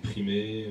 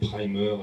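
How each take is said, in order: First: It is pronounced the French way, ending in 'é'. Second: It is pronounced the English way. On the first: "les gens disaient primé" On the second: "un film qui s'appelait Primer"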